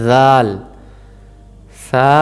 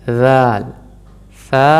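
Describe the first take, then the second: Both takes have the same delivery.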